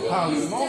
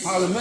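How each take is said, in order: First: The vowel is nasal and no N is heard. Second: The N is clearly pronounced after the vowel. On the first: The speaker calls it right. "Au lieu de dire parlement" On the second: The speaker calls it wrong. "ils disent parlement. ... ils vont entendre le N"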